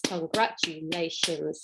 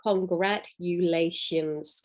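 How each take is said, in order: First: Congratulations slow and softer; a hushed, slow con-gra-tu-la-tions. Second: Congratulations drawn out slowly; con-gra-tu-la-tions, slow; slow syllables. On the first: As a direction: ease congratulations out quietly. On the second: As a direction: stretch congratulations beat by beat. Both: Shown as a demonstration. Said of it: "a word with five syllables".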